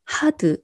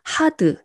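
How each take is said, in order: First: The word is said as two syllables. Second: The same.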